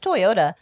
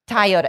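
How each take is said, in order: First: The name is said with a usual, non-Canadian pronunciation. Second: The name is said with a Canadian pronunciation. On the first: The speaker calls it right. "It's Toyota" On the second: The speaker calls it wrong. "That is the Canadian way of saying it"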